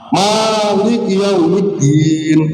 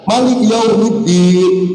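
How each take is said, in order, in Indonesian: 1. Vokal pertama Malik dibaca panjang. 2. Vokal pertama Malik dibaca pendek. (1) "maknya panjang" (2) "maknya pendek"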